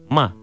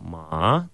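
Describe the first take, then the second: First: The pitch falls sharply from high. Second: The pitch dips low, then rises. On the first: It means to scold or swear. "«ма» четвертым тоном, это «ругаться матом»" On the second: It means horse. "«ма» третьим тоном, это «лошадь»"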